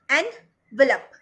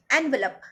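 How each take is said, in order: First: envelope louder and slowly split, en, velop; broken into syllables. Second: Said in the usual way. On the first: Shown as a demonstration. Teacher showing students the syllables, broken into syllables. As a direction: break envelope apart with a clear pause. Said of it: "कितने syllable हुए". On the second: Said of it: "एक और example ले लो".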